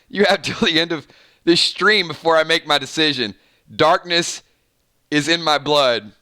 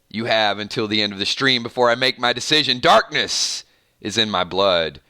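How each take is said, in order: First: It is read in his normal voice. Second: It is read in an evil, mysterious voice.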